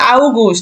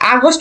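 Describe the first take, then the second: First: It begins with an 'ow' diphthong sound. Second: It begins with a plain 'a' sound. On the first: This is how German speakers say it. "ওরা বলে আউগুস্ট" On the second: This is the local English-style pronunciation. "আগস্ট বলি আমরা"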